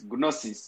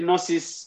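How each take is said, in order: First: The word starts with a g sound. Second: The word starts with an n sound. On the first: "The G has to sound" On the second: "I'm pronouncing it to make the G silent"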